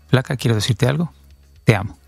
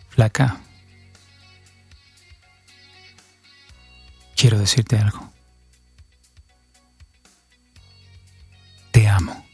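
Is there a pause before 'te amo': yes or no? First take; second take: no; yes. First: It runs on with no pause before 'te amo'. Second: There is a clear pause before 'te amo'.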